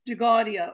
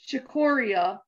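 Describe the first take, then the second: First: The word is pronounced the Italian-American way. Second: The word is pronounced the English way. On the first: "in Italian Americans pronounce it as" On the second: "that's how it's said in English"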